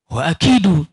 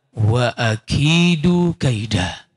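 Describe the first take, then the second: First: Said in the usual way. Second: Very slow, lower, intoned recitation; Quranic recitation. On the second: Acted. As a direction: draw the Arabic out like reciting scripture. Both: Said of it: "Tapi Allah menyatakan".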